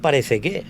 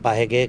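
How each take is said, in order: First: The word is said with all three syllables. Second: The word is clipped to two syllables. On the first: It is the standard form expected on television. The speaker calls it right. "ya tendrás que decir parece que" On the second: It is the local Andalusian way of speaking. The speaker calls it wrong. "acabo de decir paje que"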